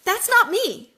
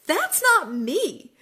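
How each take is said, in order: First: Much higher and louder, punching "not"; emphatic realization. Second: High, slow, laughing through "That's not me."; laughing repeat. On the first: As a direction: declare it with sudden conviction. Sudden self-realization. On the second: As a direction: laugh it out with relief. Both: Real, not acted.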